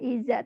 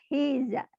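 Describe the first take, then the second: First: The word starts directly with a vowel. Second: The word starts with an h sound. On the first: The speaker calls it wrong. "bukan iza" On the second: The speaker calls it right. "tapi hiza"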